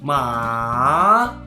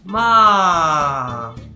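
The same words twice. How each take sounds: First: The pitch dips low, then rises. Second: The pitch falls from high to low. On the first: "it bounces back to first tone after going deeper a bit" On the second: "Fourth tone starts from first tone and it goes all the way down"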